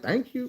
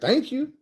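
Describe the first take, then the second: First: It is said in a rude, curt tone. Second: It is said in a polite, milder tone. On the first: This is how the speaker felt but did not say it. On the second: This is how the speaker actually said it.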